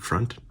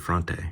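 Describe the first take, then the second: First: The final vowel is silent at the end. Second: The final vowel is sounded at the end. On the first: The speaker calls it wrong. "Why would they pronounce it like it's uh, French though?" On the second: The speaker calls it right. "There's an E. I'm going to say Fronte"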